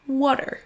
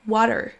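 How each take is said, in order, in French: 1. Il est prononcé avec un accent américain. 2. Il est prononcé avec un accent américain.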